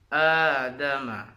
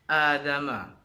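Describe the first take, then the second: First: The opening vowel is held for two beats. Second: The opening vowel is cut too short. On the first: The speaker calls it right. "Yang betul itu adalah adama yang dipanjangkan menjadi dua harokat" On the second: The speaker calls it wrong. "itu salah juga karena terlalu pendek"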